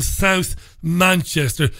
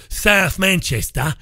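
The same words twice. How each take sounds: First: Said in the usual way. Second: Mock accent on SOUTH MANCHESTER, "South" flattened towards "Sath"; slow, exaggerated accent, "Manchester" ending in an open "-tah"; put-on local accent. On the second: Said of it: "we don't speak like that up here".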